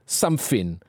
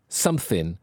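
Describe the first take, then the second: No difference in how they are said.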